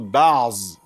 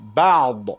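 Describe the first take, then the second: First: The word ends in a z sound. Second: The word ends in an emphatic d. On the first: The speaker calls it wrong. "not Ba'z" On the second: The speaker calls it right. "There is Ba'd"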